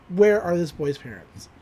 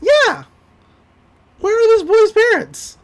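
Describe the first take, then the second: First: Said in the usual way. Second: High, loud disbelief; incredulous, much higher and louder; outraged shout. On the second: Real, not acted. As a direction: yell it in comic outrage. Outraged over boy left in pool.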